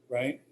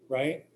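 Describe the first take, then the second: The two takes are said the same way.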